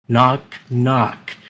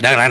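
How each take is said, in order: First: The knocks are said slowly and spaced apart. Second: The knocks are said quickly in rapid succession. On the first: The speaker calls it wrong. "I said it slowly then" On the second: The speaker calls it right. "come so quickly that it sounds like a machine gun firing"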